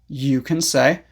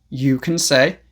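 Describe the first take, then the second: The two takes are said the same way.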